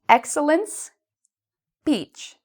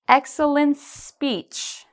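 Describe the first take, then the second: First: The words are split with a pause between them. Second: The words are joined smoothly without any pause. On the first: "let's say this first in two, two words" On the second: "Now let's bring it together"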